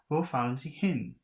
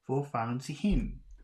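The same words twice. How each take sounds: First: The pitch falls at the end. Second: The pitch rises at the end. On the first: "Maybe it's down. You're going down" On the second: "You have to go up at the end"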